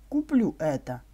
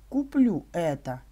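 The two takes are said the same way.

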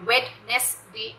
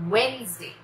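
First: A 'd' sound is heard in the first syllable. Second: No 'd' sound is heard in the first syllable. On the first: The speaker calls it wrong. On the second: The speaker calls it right.

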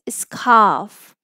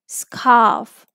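The two takes are said the same way.

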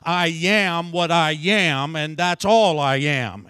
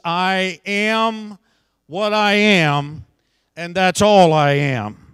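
First: It is said in an imitation of Popeye's voice. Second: It is said in the speaker's normal voice.

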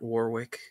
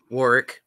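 First: The middle 'w' is pronounced, like 'War-wick'. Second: The middle 'w' is dropped, like 'Warrick'. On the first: The speaker calls it wrong. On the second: The speaker calls it right.

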